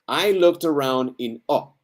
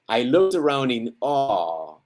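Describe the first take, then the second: First: The last word has a short, clipped vowel. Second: The last word has a long, drawn-out vowel. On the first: The speaker calls it wrong. "It's not a short word. ... don't get it, right?" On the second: The speaker calls it right. "it's a long word"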